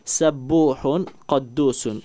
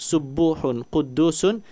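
First: The first syllables are voiced with an 'a' vowel. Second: The first syllables are voiced with a 'u' vowel. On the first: "dengan sin dan qafnya fathah" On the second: "sin dan qafnya dhammah"

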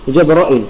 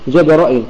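The two takes are said the same way.

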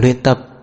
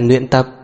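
First: The first word begins with an L sound. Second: The first word begins with an N sound. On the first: The speaker calls it right. "Là luyện tập" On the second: The speaker calls it wrong. "chứ không phải là luyện tập. Em đừng có lộn chữ L, N"

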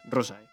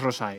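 First: The stress is on the first syllable. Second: The stress is on the last syllable. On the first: The speaker calls it right. "es rosae" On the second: The speaker calls it wrong. "no es rosae"

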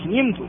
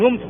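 First: The first vowel is i. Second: The first vowel is u. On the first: The speaker calls it right. "إنما يقال نمت" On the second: The speaker calls it wrong. "ولا تقول نمت"

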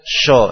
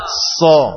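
First: The consonant is a hushing 'sh' sound. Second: The consonant is a hissing 's' sound. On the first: The speaker calls it wrong. "Jadi sha sho ini salah" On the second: The speaker calls it right. "Yang benar adalah dari sin"

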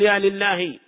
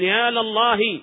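First: The L is followed by an i vowel. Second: The L is followed by an a vowel. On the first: The speaker calls it wrong. "لا تقول يا لله، هذا خطأ" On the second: The speaker calls it right. "وإنما تفتح اللام فتقول"

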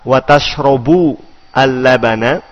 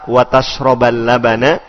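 First: The verb ends with the vowel u. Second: The verb ends with the vowel a. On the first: "Berarti wawunya adalah wawu al-istiknafiyah" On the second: "Dengan menasobkan tashroba"

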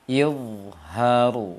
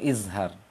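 First: The middle consonant is an emphatic dha sound. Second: The middle consonant is a plain, non-emphatic sound. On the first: The speaker calls it right. "Dia pakai dha" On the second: The speaker calls it wrong. "Bukan izhar"

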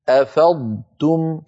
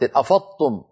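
First: A heavy d sound is followed by a light t. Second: The middle consonants merge into one doubled emphatic t. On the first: The speaker calls it right. "ضادا مفخمة مستطيلة يتلوها تاء مرققة مستفلة، هكذا" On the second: The speaker calls it wrong. "هذا نطق خاطئ. أفضتم صار النطق كأنه طاء مشددة"

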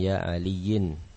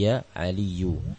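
First: The name ends in an -in sound. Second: The name ends in a plain -u sound. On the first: The speaker calls it wrong. "bukan ya aliyin" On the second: The speaker calls it right. "dhammah tanpa tanwin"

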